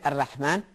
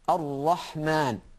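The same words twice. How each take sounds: First: The R sound is thin and light. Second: The R sound is thick and heavy. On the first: The speaker calls it wrong. "You don't say" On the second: The speaker calls it right. "the Ra has to be recited thick"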